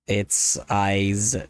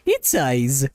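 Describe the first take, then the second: First: It is said in his ordinary speaking voice. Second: It is said in a put-on Italian-style character voice. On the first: The speaker calls it wrong. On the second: The speaker calls it right.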